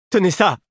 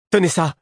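First: High, loud, urgent shout; Eliania's urgent call. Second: High, loud shout of command; Devoir's echoing cry. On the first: Girl tosses a chain to her betrothed, urgent high shout. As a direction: throw the order out fast and high. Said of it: "lança-t-elle à Devoir". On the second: Prince throws the chain on to his companion, high urgent cry. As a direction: cry it out urgently, pitch jumping up. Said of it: "comme en écho, il me cria". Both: A narrator's reading.

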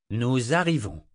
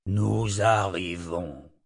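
First: Said in the usual way. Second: Slow, lower, stress on nous; slow wondering repeat. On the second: A narrator's reading. Nathan repeats the phrase slowly, puzzled. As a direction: draw out nous arrivons, puzzled. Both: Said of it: "répéta Nathan".

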